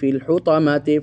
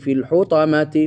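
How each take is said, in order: Both takes have the same delivery.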